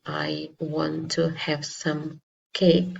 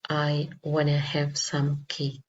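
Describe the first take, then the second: First: Want to is said as two full words. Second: Want to is shortened into one word, wanna. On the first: "they do not say" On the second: "naturally or informally they will say"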